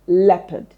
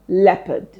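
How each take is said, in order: First: The second syllable has a weak 'uh' vowel. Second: The second syllable has a weak 'uh' vowel.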